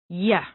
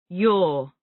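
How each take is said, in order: First: The word has a reduced, weak vowel. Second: The word has a full, clear vowel.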